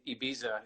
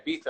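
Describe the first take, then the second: First: Ibiza with a z, "ee-BEE-za"; American pronunciation. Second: Ibiza with a th, "eye-BEE-tha"; th pronunciation. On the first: Guest shows what he says in the States, Ibiza with z. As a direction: keep a buzzed z in Ibiza. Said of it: "When I'm in the States". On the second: Guest shows his other way, Ibiza with th. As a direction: swap the z of Ibiza for th. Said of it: "Ibiza, no one understands". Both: Shown as a demonstration.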